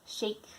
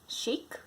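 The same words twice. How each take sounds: No difference in how they are said.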